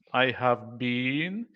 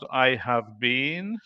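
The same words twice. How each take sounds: First: Every word is said fully, with a strong been. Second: Every word is said fully, with a strong been.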